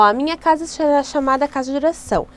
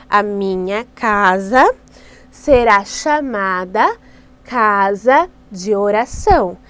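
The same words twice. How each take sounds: First: Said in the usual way. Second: Slow, louder phrase by phrase with pauses; teaching the verse slowly in chunks; slow, spelled-out verse. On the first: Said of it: "Então você faz várias vezes com eles assim". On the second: Shown as a demonstration. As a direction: dictate it slowly for the kids to copy. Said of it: "Então você faz várias vezes com eles assim, com gestos".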